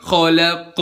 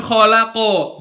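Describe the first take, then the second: First: "khalaq" ditutup qaf tanpa vokal; qaf mati benar. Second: "khalaqo" dengan vokal o tambahan; akhir salah. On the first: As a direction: akhiri "khalaq" dengan qaf tertahan. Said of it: "tapi khalaq". ("khalaq" benar) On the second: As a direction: ucapkan "khalaqo" dengan qaf terlepas jadi o. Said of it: "Bukan khalaqo". ("khalaqo" salah) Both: Shown as a demonstration.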